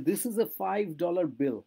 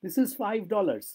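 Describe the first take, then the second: First: "five dollar bill" said slowly with no s on dollar; singular dollar said slowly; correct form, slow. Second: "five dollars" said slowly, plural s kept; contrast form, slow. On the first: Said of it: "five dollars bill নয় কিন্তু". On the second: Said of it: "বুঝতে পারছো তো তফাৎটা?". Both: Shown as a demonstration.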